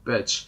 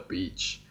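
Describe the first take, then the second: First: The vowel is short, like in 'bitch'. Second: The vowel is long, like in 'peach'. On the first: The speaker calls it wrong. "I always mispronounce these words" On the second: The speaker calls it right. "Oh, I'm sorry"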